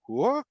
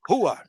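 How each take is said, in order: First: It sounds puzzled and questioning. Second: It sounds like firm agreement. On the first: The speaker did not understand. "like I didn't understand" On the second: The other person is right. "yes, you're right"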